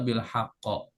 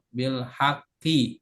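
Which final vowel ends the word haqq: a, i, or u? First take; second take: a; i. First: The word ends with an a vowel. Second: The word ends with an i vowel. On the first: The speaker calls it wrong. "Gak boleh dibaca" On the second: The speaker calls it right. "kalau majrur tanda jernya al kasroh bil haqqi ya"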